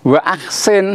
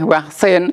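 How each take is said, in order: First: A glottal catch separates wa from aksin. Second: Wa runs straight into ksin without a catch. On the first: The speaker calls it right. "itu hamzah kotok" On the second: The speaker calls it wrong. "tidak boleh waksin"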